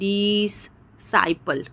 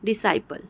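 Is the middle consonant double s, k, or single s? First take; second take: double s; single s. First: Two separate s sounds with a break between. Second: One single s sound joins the two syllables. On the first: The speaker calls it wrong. "हम ऐसा नहीं बोल रहे हैं" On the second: The speaker calls it right. "सी का उच्चारण नहीं हो रहा है, सिर्फ़ एस का हो रहा है"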